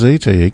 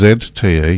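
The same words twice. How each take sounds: First: The letter Z is said the American way. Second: The letter Z is said the Australian way. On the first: This is how the other person said it. "You refer to it as" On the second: This is how most local people say it. "Most people in Australia would refer to it as"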